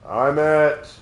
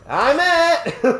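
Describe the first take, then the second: First: It is said flatly, with little personality. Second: It is said with lively personality.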